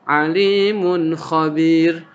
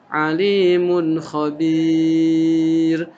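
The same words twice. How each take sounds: First: The vowel in khabir is held briefly. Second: The vowel in khabir is held long. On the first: "itu berarti mad tabi'i hanya dua saja" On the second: "kalau panjang"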